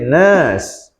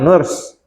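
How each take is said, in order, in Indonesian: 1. Vokalnya ditarik panjang. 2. Vokalnya pendek. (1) "tapi nurse ... itu ada tiga tuh panjang" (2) "jadi bukan nurse"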